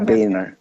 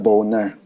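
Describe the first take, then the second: First: The first vowel sounds like 'bay'. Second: The first vowel sounds like 'bone'. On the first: This is the pronunciation the name's owner prefers. The speaker calls it right. "Gusto niya Boehner" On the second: This is the pronunciation the name's owner dislikes. The speaker calls it wrong. "Ayaw niyang tinata pinopronounce yung last name niya na Boner"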